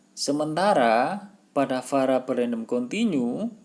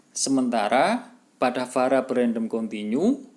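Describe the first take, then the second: No difference in how they are said.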